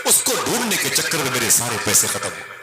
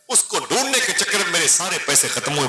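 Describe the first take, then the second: First: Said in the usual way. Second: The repeat of उसको ढूंढने के चक्कर में pitched higher and pressed harder; emphatic repeat. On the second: Acted. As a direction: lift the whole line higher, as if the loss still hurts. Narrated traveller repeats his complaint. (ऊँची आवाज़ में ज़ोर देकर दोहराया)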